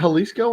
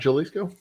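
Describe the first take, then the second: First: The word begins with an H sound. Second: The word begins with a J sound. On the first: "They pronounce the H" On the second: "not the J"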